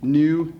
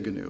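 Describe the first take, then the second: First: The word starts with an n sound, no g. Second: The word starts with a hard g sound. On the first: This is the usual way to say the animal's name. "you don't say the G" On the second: This is how the character wants to be called. "she pronounces the G in her name"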